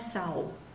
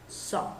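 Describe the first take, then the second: First: The vowel is not an open O sound. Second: The vowel is an open O sound. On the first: The speaker calls it wrong. "Não é saw" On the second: The speaker calls it right. "como se eu tivesse um O com acento agudo"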